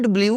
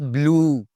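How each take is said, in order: First: Blue said bliu, with a y glide; the wrong way: bliu. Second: Blue said bloo, with no glide; correct blue. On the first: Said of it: "not blue". (blue ग़लत: "ब्लियू") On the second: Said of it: "it's blue". (blue सही: "ब्लू") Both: Shown as a demonstration.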